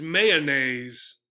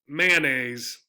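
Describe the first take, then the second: First: "mayonnaise" drawn out slowly with an extra O syllable; three-syllable mayonnaise. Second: "mayonnaise" as man-aise; two-syllable mayonnaise. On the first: Teacher showing the other "mayonnaise", slow, three syllables. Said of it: "another pronunciation you might hear". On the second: Teacher showing the Ohio "mayonnaise", two syllables. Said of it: "this word in Ohio is often pronounced". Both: Shown as a demonstration.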